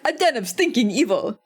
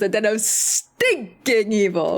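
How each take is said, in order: First: Stinking gets no special emphasis. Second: Stinking is said with strong emphasis.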